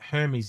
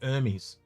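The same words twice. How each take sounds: First: The word begins with an h sound. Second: The word begins without an h sound. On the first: "instead of saying Hermes" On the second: "we drop our H's a lot"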